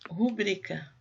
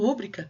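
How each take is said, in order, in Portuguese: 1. A tônica está na segunda sílaba. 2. A tônica está na primeira sílaba. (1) "então é uma paroxítona e não tem acento" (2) "se fosse rúbrica teria que ter acento"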